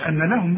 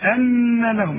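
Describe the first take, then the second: First: The nasal n is cut short, not held. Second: The nasal n is held for two beats. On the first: The speaker calls it wrong. "ما تقولش أن لهم بقى" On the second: The speaker calls it right. "لابد أن تغن بمقدار حركتين"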